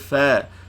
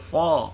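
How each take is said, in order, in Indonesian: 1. Bunyinya ringan dan tipis, tidak berat. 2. Bunyinya berat dan tebal, terdengar gelap. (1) "kena baca fa" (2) "tak boleh baca fa"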